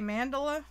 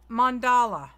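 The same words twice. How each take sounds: First: The first syllable sounds like 'man'. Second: The first syllable sounds like 'mon'. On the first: "some people say mandala" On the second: "It's like M O N Dala. That's how you say it"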